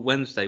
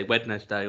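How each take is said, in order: First: Said in the usual way. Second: "Wednesday" as Wed-nes-day, D sounded; said as spelt. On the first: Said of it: "we used to call Wednesday Wednesday". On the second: Shown as a demonstration. Friend recalls a college joke, "Wednesday" as Wed-nes-day. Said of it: "say words the way that they're spelt".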